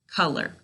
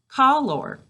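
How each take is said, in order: First: The second syllable sounds like er. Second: The second syllable sounds like or. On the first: This is the everyday pronunciation. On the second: This pronunciation is used to help spell the word.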